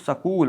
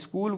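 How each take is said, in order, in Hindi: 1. इसे क्षेत्रीय पंजाबी-शैली के उच्चारण में कहा गया है। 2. इसे मानक हिंदी उच्चारण में कहा गया है। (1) "पंजाब प्रांत में पला पला बढ़ा बालक" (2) "स्कूल को"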